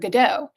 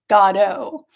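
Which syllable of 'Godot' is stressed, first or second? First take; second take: second; first. First: The stress is on the second syllable. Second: The stress is on the first syllable. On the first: The speaker calls it wrong. "I've been mispronouncing it because I've always called it" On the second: The speaker calls it right. "with the emphasis on God"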